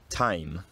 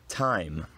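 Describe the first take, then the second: The two takes are said the same way.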